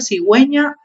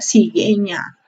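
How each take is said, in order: First: The u after the g is pronounced. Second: The u after the g is silent. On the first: "gracias a la diéresis, se puede leer la U" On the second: "Si no le colocamos la diéresis, diría"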